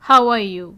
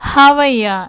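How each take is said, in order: First: All three words are said fully and separately. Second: The words blend into one reduced form.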